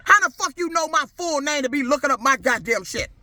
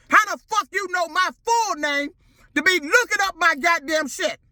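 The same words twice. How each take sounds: First: Said in the usual way. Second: Higher, harder repeat; angry demand. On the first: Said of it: "repeats the question louder". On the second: Real, not acted. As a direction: ask it again, furious and higher. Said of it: "repeated, higher and harder".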